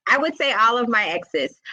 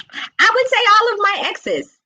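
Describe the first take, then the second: First: Said in the usual way. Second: Much higher and louder, a bold declaration; emphatic exclamation. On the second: Real, not acted. Answering her own question about exes, high and emphatic. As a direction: announce it with a laughing flourish.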